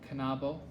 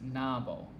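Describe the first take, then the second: First: The K is pronounced before the N. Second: The K is dropped before the N. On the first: The speaker calls it right. "K and N are pronounced in Kanabo" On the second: The speaker calls it wrong. "it keeps pronouncing Kanabo as Nabo"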